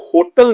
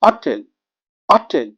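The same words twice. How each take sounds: First: होटल with a clear spoken h, the common way; the wrong version, h pronounced; wrong pronunciation. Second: होटल said as otel, h silent, falling each time; teacher drills the right form, h silent; correct pronunciation. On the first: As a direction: say होटल as hotel, h sounded. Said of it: "इसका जो pronunciation होता है वो होटल नहीं होता". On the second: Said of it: "इसका pronunciation होता है होटल". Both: Shown as a demonstration.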